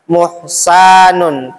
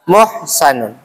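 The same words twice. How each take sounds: First: The second-syllable vowel is drawn out long. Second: The second-syllable vowel is kept short. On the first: The speaker calls it wrong. "bukan muhsanun" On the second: The speaker calls it right. "Sanya pendek ya, ... tapi muhsanun"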